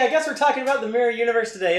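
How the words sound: It sounds eager and excited. The speaker is happy about the topic. The speaker calls it right. "I meant to say it all excited"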